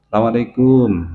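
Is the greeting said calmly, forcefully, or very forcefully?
calmly. The greeting is said calmly and gently.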